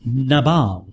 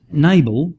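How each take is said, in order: First: "Nabal" with an open "ah" in a stressed last syllable; na-BAHL pronunciation. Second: "Nabal" with a long "ay" and stress on the first syllable; NAY-bul pronunciation. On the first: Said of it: "it probably is pronounced". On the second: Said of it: "I don't know how to pronounce". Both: Shown as a demonstration.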